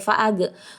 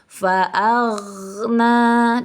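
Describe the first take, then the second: First: The gh sound is cut off abruptly. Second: The gh sound is held without a break. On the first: The speaker calls it wrong. "jangan sampai fa'ag" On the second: The speaker calls it right. "ditahan, jangan sampai putus huruf ghainnya"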